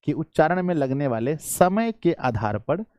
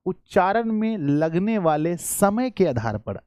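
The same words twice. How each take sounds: First: Said in the usual way. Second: Slow, deliberate phrase with weight on समय; slow emphatic. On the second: Shown as a demonstration. Teacher slowly stresses the exam phrase for students. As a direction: spell it out word by word so pupils catch समय. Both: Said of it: "अगर मैं यहाँ पर पूछूं".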